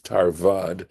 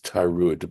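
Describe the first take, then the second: First: The word is said with a v sound. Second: The word is said without a v sound. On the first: The speaker calls it right. "but it is tarvad" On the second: The speaker calls it wrong. "for some reason I pronounced this word right here, this word right here, as tarud"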